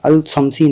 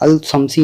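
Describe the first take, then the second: First: The l sound of al is clearly pronounced. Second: The same.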